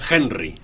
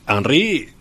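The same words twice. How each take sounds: First: The name is pronounced the English way. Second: The name is pronounced the French way. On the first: The speaker calls it wrong. "ha habido una tendencia en estos días a pronunciar Henry" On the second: The speaker calls it right. "este es Henry de origen francés y por lo tanto la pronunciación es esta otra"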